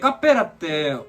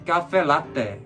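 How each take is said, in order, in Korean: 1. 부산 억양으로 말해요. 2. 서울 억양으로 말해요. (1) "부산에서 어떻게 주문하니" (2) "그러면 안 되지"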